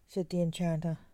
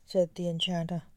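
The two takes are said the same way.

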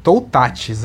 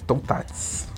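First: Said in the usual way. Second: "Toutatis" breathed with no voice; whispered name. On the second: Shown as a demonstration. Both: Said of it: "tem que falar com sotaque francês".

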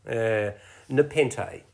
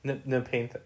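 First: Nepenthe 慢慢读出, 每个音节清楚; correct pronunciation. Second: Ne- 先卡住再说 Nepenthe, 声音变小; stumbling attempt. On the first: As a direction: say Nepenthe slowly and clearly, syllable by syllable. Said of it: "help me again with pronunciation". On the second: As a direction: stumble on Ne- then try Nepenthe softly. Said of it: "I'm not gonna try". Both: Shown as a demonstration.

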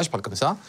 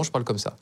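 First: Released, slightly nasal natural voice; relaxed real voice. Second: Trained, placed voice, a little lower; repositioned voice. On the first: Man showing a friend how he talks when he relaxes, nasal natural voice. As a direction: let go of the vocal placement. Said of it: "quand je relâche". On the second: Man showing a friend his fabricated voice, lower placed tone. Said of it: "je me positionne autrement". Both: Shown as a demonstration.

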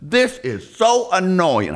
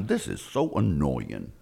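First: Higher, slow exasperated whine; drawn-out complaint. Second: Low, soft grumble to himself; grumpy mutter. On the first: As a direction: stretch out the complaint. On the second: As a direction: grumble it under your breath. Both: Retold or imitated. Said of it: "So he's driving through like".

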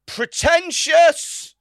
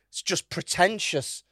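First: High, drawn-out mock scream; retold scream. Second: Said in the usual way. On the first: Woman piping up at the art talk, mock screaming. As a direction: screech the word out long and loud, imitating a heckler. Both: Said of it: "she screams".

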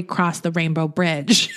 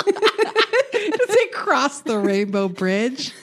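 First: Said in the usual way. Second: High, drawn-out mock incredulity through laughter; laughing mockery. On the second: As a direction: stretch it out, laughing at the flowery phrase. Mocking the article's flowery wording.

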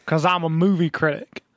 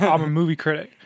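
First: Lightly put-on self-important voice, rising at the end; mocked movie critic. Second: Said in the usual way. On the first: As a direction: mimic a show-off, stretching it slightly. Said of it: "He doesn't actually talk like that". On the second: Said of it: "I can't do an American accent".

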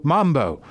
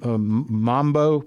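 First: Mambo said firmly with a falling, settled tone; confident mambo. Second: Mambo said slowly, searching, as a hesitant question; unsure mambo. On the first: Recalling the music she danced to, sure Mambo. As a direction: land on Mambo like you finally found it. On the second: Trying to remember the dance's name, unsure mambo. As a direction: stretch out mambo while groping for the word. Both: Real, not acted. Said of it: "Is that the word?".

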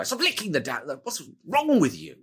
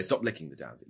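First: Higher, fed-up snap at the spider licker; exasperated snap. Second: Said in the usual way. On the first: Shown as a demonstration. Wizard snapping at companion licking spider goo, exasperated. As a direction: make "Stop licking the damn" sound truly fed up. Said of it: "you would go". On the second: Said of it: "rather than just say".

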